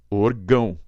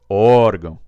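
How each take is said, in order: First: The stress is on the last syllable. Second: The stress is on the first syllable. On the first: The speaker calls it wrong. "Se eu não acentuar, se eu chamar do jeito que ela veio, eu falo orgão" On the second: The speaker calls it right. "tirar aqui do orgão e jogar aqui no O"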